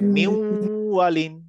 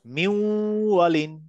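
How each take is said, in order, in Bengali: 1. n দ্বিত্ব w ধ্বনিতে মিশে যায়। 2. n দ্বিত্ব w ধ্বনিতে মিশে যায়।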